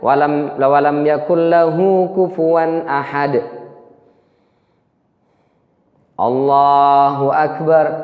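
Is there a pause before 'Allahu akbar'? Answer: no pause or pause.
pause. There is a short pause before the final phrase. The prayer is done with calm composure. The speaker calls it right. "itu minimal begitu"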